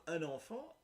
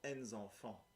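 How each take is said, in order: First: "un enfant" said as uhn-ahn-FAHN, the singular, raised pitch; singular demo. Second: "en enfants" said as ahn-nahn-FAHN, liaison n carried into the word; plural demo. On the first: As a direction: clearly model "un enfant" with no liaison sound, rising at the end. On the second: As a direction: model "en enfants" with a linked n, falling and softer. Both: Shown as a demonstration. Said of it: "Euh, donc".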